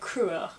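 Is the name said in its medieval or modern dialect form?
modern dialect. The name is said in its newer shortened form. "In other dialects, though, the name has undergone a number of shifts and is now pronounced more like Cruer"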